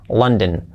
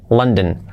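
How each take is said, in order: Both takes have the same delivery.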